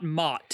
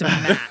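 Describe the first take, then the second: First: The vowel sounds like the one in 'cot'. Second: The vowel sounds like the one in 'cat'. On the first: The speaker calls it wrong. "not Mott" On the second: The speaker calls it right. "It's and it's Matt. just the normal way"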